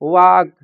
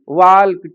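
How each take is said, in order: First: The L sound is silent. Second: The L sound is pronounced. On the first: The speaker calls it right. "इनमें एल silent होता है" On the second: The speaker calls it wrong. "लेकिन वो इनको भी ... करके पढ़ते हैं"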